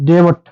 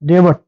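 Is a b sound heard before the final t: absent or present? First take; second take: present; present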